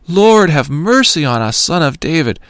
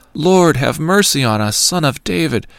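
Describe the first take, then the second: First: Crying out even louder. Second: Raised, pleading call for mercy; crying out. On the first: Blind men shouting past the crowd that rebukes them, a desperate loud plea. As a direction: shout it over the crowd trying to hush you. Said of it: "cried out all the more". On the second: Blind men calling out to Jesus from the roadside, a raised plea. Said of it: "they cried out". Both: A narrator's reading.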